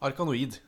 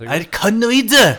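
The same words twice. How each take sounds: First: The name is said with a plain accent. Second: The name is said with a Japanese accent. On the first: "kaller jeg det i hvert fall" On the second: "Kan du ikke si det med japansk uttale forresten?"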